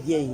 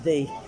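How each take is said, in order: First: The word begins with a y sound. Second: The word begins with a th sound. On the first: The speaker calls it wrong. "No one said ye" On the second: The speaker calls it right. "they said thee"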